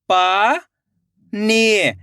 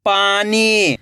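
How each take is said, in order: First: पानी split into पा, long pause, नी; rising पा, then falling नी; syllable by syllable. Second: पानी joined as one word with long ई; blended word. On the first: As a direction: sound out पानी slowly in two parts. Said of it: "एक एक अक्षर का उच्चारण करना है". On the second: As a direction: read पानी whole, falling at the end. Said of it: "खींच के पढ़ना है". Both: Shown as a demonstration.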